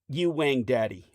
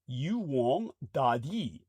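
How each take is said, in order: First: The last word is said like English 'daddy'. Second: The last word is said as Chinese 'dadi'.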